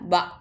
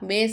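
First: The letter name ends in an 'ah' vowel. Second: The letter name ends in an 'ay' vowel. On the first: The speaker calls it right. "பா தான் சொல்லணும்" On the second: The speaker calls it wrong. "பே சொல்லக்கூடாதுமா"

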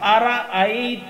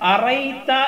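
First: A glottal catch separates the syllables. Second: The syllables run together with no glottal catch. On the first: The speaker calls it right. "ഹംസ അവിടെ ഉച്ചരിക്കണം" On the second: The speaker calls it wrong. "അറൈത എന്ന് പറയരുത്"

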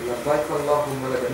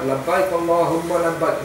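First: It is said in a humble, lowly manner. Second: It is said in a proud, self-important manner. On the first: The speaker comes as a lowly servant. The speaker calls it right. "We should be the humility coming with it" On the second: The speaker comes full of self-importance. The speaker calls it wrong.

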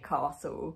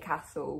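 First: The first vowel is long, like in 'car'. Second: The first vowel is short, with no R-like sound. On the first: This is how people in the speaker's area say it. "we say castle, where there's no R" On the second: This is not how people in the speaker's area say it. "we don't say castle"

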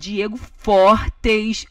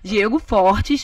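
First: The surname is said with exaggerated, very strong force. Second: The surname is stressed only with moderate force. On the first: It is a joking overstatement of the real delivery. "tô zoando. Não falei assim tão forte" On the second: This is closer to how it was really said. "mas, tipo assim, enfatizava o o sobrenome"

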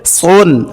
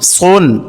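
The two takes are said the same way.

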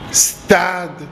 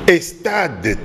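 First: The word starts directly with the st cluster. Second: An extra e vowel comes before the st. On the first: The speaker calls it right. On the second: The speaker calls it wrong. "Kobakisaka e wana T"

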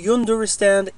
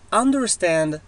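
First: It starts with a 'yoo' sound. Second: It starts with an 'uh' sound. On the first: The speaker calls it wrong. "ما نقول you understand" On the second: The speaker calls it right. "it's a"

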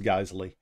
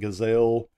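First: The name does not sound like gazelle. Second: The name sounds like the word gazelle. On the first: The speaker calls it right. "the proper pronunciation for it is Geissele" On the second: The speaker calls it wrong. "Some people pronounce it Gazelle"

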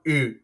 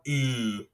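First: The vowel is held only briefly. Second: The vowel is held for a long time. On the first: "Short sound U" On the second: "Long sound U"

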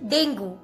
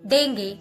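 First: It is said with a Hindi pronunciation. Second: It is said with an American pronunciation. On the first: "Whenever it comes in Hindi, simply call it dengue" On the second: "when it comes in American pronunciation, people call it dengue"

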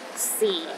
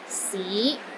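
First: The pitch is at the lowest level. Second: The pitch rises from low to mid. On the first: It means time. "The fourth tone is the lowest tone" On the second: It means city. "It starts low then rises to the middle of your range"

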